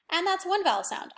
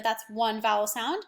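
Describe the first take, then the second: First: One lifted higher and punched; stress on one. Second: Said in the usual way. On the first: Shown as a demonstration. Teacher counting vowel sounds for pupils, stressing one. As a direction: hit the word one to count it. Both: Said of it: "because those are working together".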